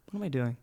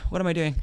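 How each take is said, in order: First: Very soft, almost breathless question; hushed morning question to yourself; whispered self-question. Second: Soft, falling self-question; hushed morning question; quiet self-question. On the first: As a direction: mutter it to yourself, barely voiced. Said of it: "Go ahead, this is you". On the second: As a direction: ask yourself quietly, half to yourself. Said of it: "Go ahead, this is you. Ready?". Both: Shown as a demonstration.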